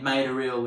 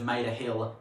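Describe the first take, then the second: First: The word starts without an h sound. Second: The word starts with a clear h sound. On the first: "H-dropping, you know, saying made a ill" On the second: "instead of made a hill"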